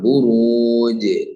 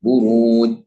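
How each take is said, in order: First: The final consonant is released with a bounce. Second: The final consonant is held without a bounce. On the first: The speaker calls it right. "ബുറൂജ് എന്ന് ഓതണം. അതാണ് കൽക്കല" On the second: The speaker calls it wrong. "ബുറൂജ് എന്ന് പറഞ്ഞാൽ തെറ്റാണ്"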